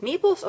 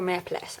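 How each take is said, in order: First: "meeples" said as MEE-pulz, first option; unsure pronunciation. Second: "meeples" said as MEP-less, second option; unsure pronunciation. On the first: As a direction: try "meeples" with a long ee, as one of two choices. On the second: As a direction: try "meeples" with a short e and "less" at the end. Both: Real, not acted. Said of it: "I don't know".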